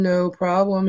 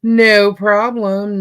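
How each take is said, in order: First: Said in the usual way. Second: Slow stretched reassurance. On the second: Real, not acted. To the viewer who may go mute, slow easy no problem. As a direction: draw out no problem, easy and unhurried.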